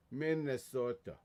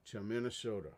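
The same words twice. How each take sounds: First: Put-on Minnesotan long O; Minnesota accent. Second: Said in the usual way. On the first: Shown as a demonstration. Streamer showing his best Minnesota, Minnesota accent. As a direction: say it like a north Minnesota local. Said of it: "that's the best Minnesota I can do". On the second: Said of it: "that's the best accent I got".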